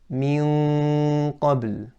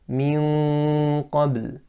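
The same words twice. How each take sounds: No difference in how they are said.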